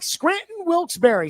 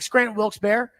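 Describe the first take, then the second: First: The name is said slowly and fully. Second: The name is said quickly and run together.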